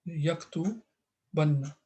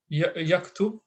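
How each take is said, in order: First: "yaktubanna" drawn out slowly, stress on the doubled "nna"; slow emphatic. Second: Said in the usual way. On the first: Shown as a demonstration. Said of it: "no matter what you think". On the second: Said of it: "in normal day-to-day, you just use".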